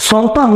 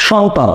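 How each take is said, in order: First: সন্তান as "sontan", dental s first; wrong s sound. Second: সন্তান as "shontan", sh first; correct sh sound. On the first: Teacher asking which is right, সন্তান said with dental s. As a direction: begin সন্তান with a plain hissing s. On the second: Teacher asking which is right, সন্তান said with sh. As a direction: begin সন্তান with a clear sh. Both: Shown as a demonstration. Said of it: "মানে উচ্চারণটা কি করতে চান?".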